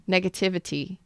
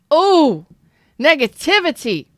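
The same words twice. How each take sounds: First: Said in the usual way. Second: High, loud exclamation; loud outburst. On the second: Real, not acted. Fired-up reader exclaiming to the chat, loud. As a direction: cry it out loud and high, caught up in it. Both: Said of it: "that was loud".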